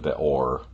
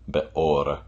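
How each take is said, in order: First: The R is a retroflex American R. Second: The R is a quick tongue flap. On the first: The speaker calls it wrong. "a sort of more classical Midwestern R" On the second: The speaker calls it right. "the letter R in Hebrew is a slight flip"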